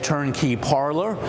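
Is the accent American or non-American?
American. It is said in an American accent.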